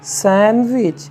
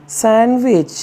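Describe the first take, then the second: Both takes have the same delivery.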